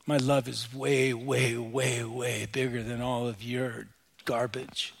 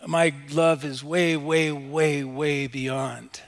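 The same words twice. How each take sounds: First: Low, intimate voice of God; tender divine reassurance. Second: Firm, raised stress on each "way"; emphatic divine promise. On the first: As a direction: keep it low and even through each "way". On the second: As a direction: proclaim it, hitting every "way". Same promise repeated emphatically. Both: Acted.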